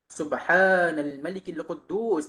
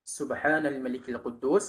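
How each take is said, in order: First: It is drawn out and said loudly. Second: It is said short and at normal volume.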